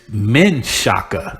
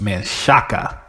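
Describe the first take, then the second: First: It has three syllables, starting with 'men'. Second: It has three syllables, starting with 'man'. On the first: This is the changed current name. "now it's Men Shaka" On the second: This is the original correct pronunciation. "it's really pronounced Manshaka"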